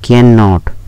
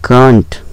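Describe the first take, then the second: First: Two full syllables are said. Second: It is squeezed into one short syllable. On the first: "फिर है कैन नॉट" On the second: "इसको बोलेंगे कांट"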